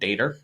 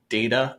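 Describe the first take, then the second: First: The word ends with an added R sound. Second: The word ends in a plain vowel, without R.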